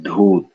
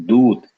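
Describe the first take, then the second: First: Dhoot with a puff after the d; aspirated dh. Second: Doot with a plain airless d; unaspirated d. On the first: Teacher giving the word for abandoned, aspirated dh in Dhoot. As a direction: breathe out on the dh of Dhoot. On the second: Teacher giving the word for messenger, unaspirated d in Doot. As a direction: keep the d of Doot unbreathed. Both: Shown as a demonstration. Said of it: "the power of aspiration".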